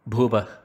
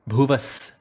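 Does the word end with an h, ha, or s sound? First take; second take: h sound; s sound. First: The word ends with a breathy h sound. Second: The word ends with an s sound. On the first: The speaker calls it wrong. "not Bhuvah" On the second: The speaker calls it right.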